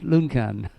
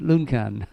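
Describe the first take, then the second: First: The middle consonant is a 'k' sound. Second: The middle consonant is a 'k' sound.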